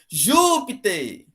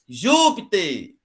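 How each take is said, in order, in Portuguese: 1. A tônica está na primeira sílaba. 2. A tônica está na primeira sílaba.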